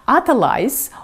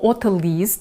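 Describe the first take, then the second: First: It is said with an English pronunciation. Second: It is said with a French pronunciation. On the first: "the English or French pronunciation" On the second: "the English or French pronunciation"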